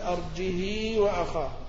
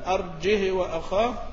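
First: The vowel after the h sound is lengthened. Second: The vowel after the h sound is short. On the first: "وقرأ ابن جماز" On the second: "يقرأ بالقصر ابن وردان"

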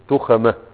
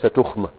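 First: The middle consonant carries a short a vowel. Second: The middle consonant has no vowel after it. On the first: The speaker calls it right. "يقال فلان عنده تخمة" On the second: The speaker calls it wrong. "وليس تخمة"

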